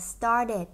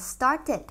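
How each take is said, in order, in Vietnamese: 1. Phụ âm giữa không phải âm t rõ. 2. Phụ âm giữa là âm t rõ.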